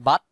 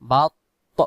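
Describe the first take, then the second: First: The final t sound is clipped short. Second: The final t sound is audibly released. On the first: The speaker calls it wrong. "তাহলে শেষে অক্ষরটা ত না হয়ে তা হয়ে যাবে।" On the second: The speaker calls it right. "আওয়াজটা ছেড়ে দিব।"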